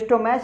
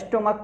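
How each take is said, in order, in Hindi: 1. शब्द का अंत 'ch' ध्वनि से होता है। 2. शब्द का अंत 'k' ध्वनि से होता है। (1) "इसको स्टोमैच मत पढ़ लीजिएगा" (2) "स्टोमक पढ़ते हैं इसको"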